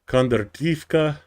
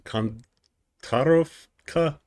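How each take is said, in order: First: The name ends with an -ivka sound. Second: The name ends with an -ovka sound.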